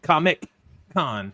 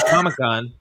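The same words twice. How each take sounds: First: The middle C sound is pronounced. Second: The middle C sound is dropped. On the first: This is the technically correct way. "He went Comic-Con, as you're supposed to" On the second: This is how most people say it. "Everybody says Comic-Con"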